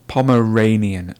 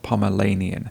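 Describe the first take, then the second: First: The middle consonant is an R sound. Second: The middle consonant is an L sound. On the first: The speaker calls it right. "It's actually Ranian" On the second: The speaker calls it wrong. "not Lanian"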